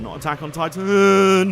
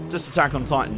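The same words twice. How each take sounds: First: "Attack on Titan" drawn out slowly, louder, with weight on Titan; stressed title. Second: Said in the usual way. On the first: Shown as a demonstration. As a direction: lean hard and slow on Attack on Titan.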